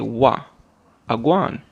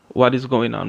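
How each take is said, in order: First: It is said in shortened Jamaican Patois form. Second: It is said in full standard English form. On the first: "We say" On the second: "we don't say"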